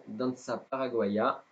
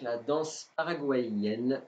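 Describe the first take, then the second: First: "Danza Paraguaya" said in Spanish, slowed; "Danza Paraguaya" in Spanish, apologising for the accent; Spanish pronunciation. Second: Said in the usual way. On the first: Shown as a demonstration. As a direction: pronounce "Danza Paraguaya" as a Spanish title, with a French speaker's accent. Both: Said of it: "désolé pour mon accent".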